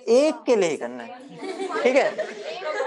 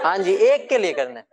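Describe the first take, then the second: First: Slow, higher, teasing singsong with a laugh; mock-sweet drawl to the class; playful drawn-out. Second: Said in the usual way. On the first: Teacher repeats point playfully.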